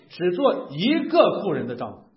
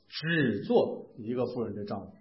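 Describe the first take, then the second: First: The stress falls on the word 一个. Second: The stress falls on the word 只. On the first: There must not be more than one wife. "就是强调不能有两个以上媳妇" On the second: Divorce is not allowed. "好像你的感觉是不是在说不能离婚？"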